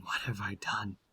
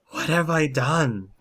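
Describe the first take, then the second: First: Very soft, broken-down whisper; weeping whisper. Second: High, loud cry of despair; anguished wail. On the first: Werewolf weeping alone in the forest, whispering. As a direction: whisper it to yourself in despair. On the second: Werewolf breaking down in the moonlight, wailing. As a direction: wail it out, pitched up and louder. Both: Acted. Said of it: "he starts crying".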